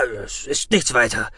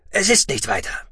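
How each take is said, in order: First: Calm, playing it down; soothing. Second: Quick, higher reassurance; hasty. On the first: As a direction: reassure them it's nothing. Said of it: "beschwichtigte Xantam". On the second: Acted. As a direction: rush to play it down. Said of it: "wiederholte Xantam hastig".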